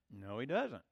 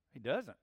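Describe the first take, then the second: First: Low, firm "doesn't"; flat denial, pressing "doesn't". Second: Quieter echo of "He doesn't"; repeated denial. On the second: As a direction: repeat "doesn't", softer and final. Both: Shown as a demonstration.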